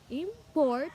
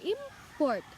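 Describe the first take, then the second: First: The stress is on the second syllable. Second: The stress is on the first syllable. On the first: "the stress is in the port" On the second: "the stress in the im, not in the port"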